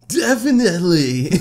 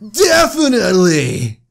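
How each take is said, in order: First: It is said flatly, without much excitement. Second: It is said with strong excitement.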